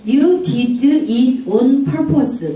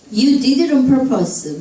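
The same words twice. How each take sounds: First: "You did it on purpose" sounded out slowly; slow, unlinked "You did it on purpose"; word-by-word reading. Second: "did it on" run together; flowing, joined-up "You did it on purpose"; linked speech. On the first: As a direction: separate each word, "did", "it", "on". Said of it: "파닉스로 또박또박 읽다가". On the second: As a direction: link "did it on" into "dideron". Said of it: "이렇게 연음이 심합니다". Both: Shown as a demonstration.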